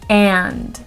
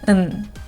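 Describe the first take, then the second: First: The vowel is full and clearly pronounced. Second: The vowel is reduced to a weak schwa. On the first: "in their strong form, they will be pronounced clearly with a very clear vowel sound" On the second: "in their weak forms, those words will not be stressed and the vowel sound will be reduced to a schwa"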